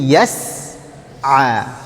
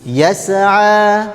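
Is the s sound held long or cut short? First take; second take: long; short. First: The s sound is held long and smooth. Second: The s sound is clipped short and bounced. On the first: The speaker calls it right. "Jadi yas'a" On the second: The speaker calls it wrong. "Kalau tidak disempurnakan, nanti biasanya terpantul"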